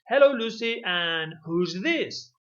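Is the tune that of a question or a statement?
question. It is said with question intonation. The speaker calls it right. "with the intonation of a question"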